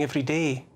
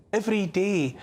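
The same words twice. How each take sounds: First: Said in the usual way. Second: "every day" lifted higher, set apart; emphatic repeat. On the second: Real, not acted. Monologuist hammering home the daily deaths, emphatic.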